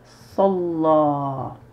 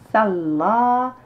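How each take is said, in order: First: The L is held long and the final vowel lengthened. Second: The L is short and the vowel is not lengthened. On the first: The speaker calls it right. "j'ai dit salla" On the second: The speaker calls it wrong. "J'ai pas dit salla"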